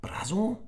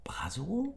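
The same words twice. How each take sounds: First: Said in the usual way. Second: Hushed unvoiced question; boy whispering secretly in class; whispered. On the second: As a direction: whisper it to your neighbor. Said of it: "flüsterte Emir".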